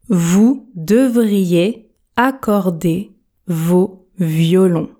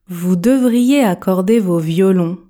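First: The sentence is spoken very slowly. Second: The sentence is spoken at ordinary speed. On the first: "Version tortue" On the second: "Version normale"

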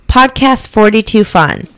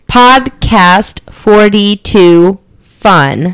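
First: It is read in a natural, flowing way. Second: It is read in a robotic, syllable-by-syllable way.

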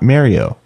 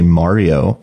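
First: The first vowel does not sound like mama. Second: The first vowel sounds like the vowel in mama. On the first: "not Mario" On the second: "Would you say it like mama?"

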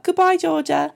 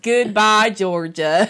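First: It is said in her ordinary accent. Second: It is said in a Southern accent.

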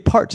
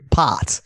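First: It is said the Americanized way, with r. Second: It is said their own way, without r.

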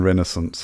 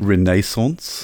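First: It is said in an American accent. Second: It is said in a British accent.

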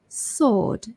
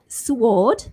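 First: The W sound is left out. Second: The W sound is pronounced. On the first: The speaker calls it right. "but silent W" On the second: The speaker calls it wrong. "so it's not sword"

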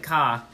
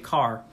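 First: It is said in an Australian accent. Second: It is said in an American accent. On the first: This is not how Americans say it. "They don't say car" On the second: This is how Americans say it. "They say car"

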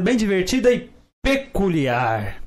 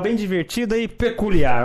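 First: The word peculiar is strongly emphasized. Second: The word peculiar is said plainly.

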